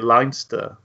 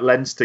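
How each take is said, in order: First: Leinster is said with a North American pronunciation. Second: Leinster is said with a British pronunciation. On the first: "you've become so North American now that ... you'd say it Leinster" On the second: "you wouldn't say that Leinster"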